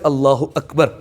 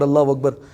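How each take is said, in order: First: It is said slowly and clearly. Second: It is said quickly and run together. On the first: The speaker calls it right. "सही वर्ड है" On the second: The speaker calls it wrong. "जो हम इतना तेजी से पढ़ते हैं"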